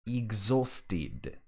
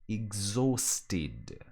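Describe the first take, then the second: The two takes are said the same way.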